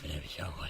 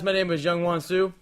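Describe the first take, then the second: First: It is said in a gravelly Batman voice. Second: It is said in his normal voice.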